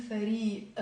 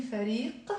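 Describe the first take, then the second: First: Lebanese فريق, final q dropped to a glottal catch; qaf as glottal stop. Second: فريق with a hard uvular q at the end; final qaf pronounced. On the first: Teacher showing Lebanese pronunciation, glottal stop ending فريق. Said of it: "I'm saying". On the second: Teacher showing the form not used, qaf sounded in فريق. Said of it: "notice how I'm not saying". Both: Shown as a demonstration.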